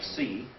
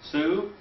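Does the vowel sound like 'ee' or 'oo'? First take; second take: ee; oo. First: The vowel sounds like 'ee'. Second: The vowel sounds like 'oo'. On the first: The speaker calls it right. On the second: The speaker calls it wrong.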